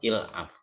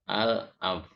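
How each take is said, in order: First: The word begins with an 'il' sound. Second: The word begins with an 'al' sound. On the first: This is how Egyptians say it in dialect. "Alif lam dalam Amiyah Mesir baca il. Jadi terdengar ilaf" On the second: This is the original standard form. "Asalnya kan begini"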